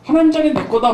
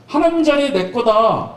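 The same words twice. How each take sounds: First: Louder, rising brag on 하나님; boastful Peter. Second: Boastful Peter. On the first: Peter bragging to everyone, crowing 하나님 higher. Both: Retold or imitated. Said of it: "얼마나 잘난 척하고".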